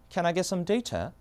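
It is said in a British accent. "영국은요"

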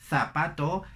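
The z is pronounced like English th. "Dicen ... zapato"

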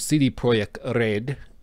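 The name is said with a native-style pronunciation.

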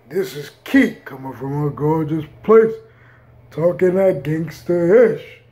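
It is said in a put-on deep voice.

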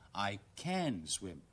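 The word can is strongly stressed. Insisting the speaker really can swim. "要強調嗰陣時候咧"

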